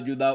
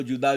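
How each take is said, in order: No difference in how they are said.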